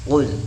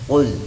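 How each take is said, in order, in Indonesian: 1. Huruf pertama diucapkan tebal dan dalam. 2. Huruf pertama diucapkan tebal dan dalam.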